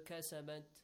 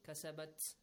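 First: The final t sound is soft but audible. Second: The final t sound is strongly pronounced. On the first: The speaker calls it right. "It's softer" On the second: The speaker calls it wrong. "it's too much on ta"

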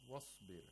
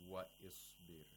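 First: The initial vowel is dropped and wa joins sbir. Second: The initial vowel of isbir is pronounced separately. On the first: The speaker calls it right. "Hamzatul Wasl is not part of the word" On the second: The speaker calls it wrong. "We don't say wa isbir"

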